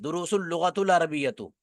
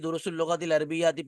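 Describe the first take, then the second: First: The last two words end with a u vowel. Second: The last two words end with an i vowel. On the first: The speaker calls it wrong. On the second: The speaker calls it right.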